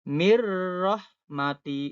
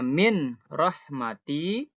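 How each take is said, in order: First: The n sound merges into the r. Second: The n sound is kept before the r. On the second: "yang awalnya"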